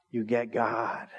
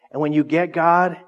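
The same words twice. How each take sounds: First: "get" leaned on, lower and softer; soft emphatic echo. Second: Said in the usual way. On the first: Shown as a demonstration. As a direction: echo it quietly, landing on "get".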